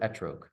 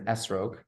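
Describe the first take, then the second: First: The middle consonant is a T sound. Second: The middle consonant is an S sound. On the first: This is the modern Hebrew form. "when we come back to modern day Hebrew, people use the word etrog" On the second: This is the traditional form. "in the etrog in the Torah, it's, let's say it's an esrog"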